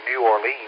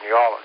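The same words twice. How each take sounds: First: The city name is said the outsider way. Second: The city name is said the local way. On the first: The speaker has just arrived. The speaker calls it wrong. "You don't say New Orleans. They'll know exactly that you're just, you know, you just arrived" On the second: The speaker belongs there. The speaker calls it right. "You got to say New Orleans"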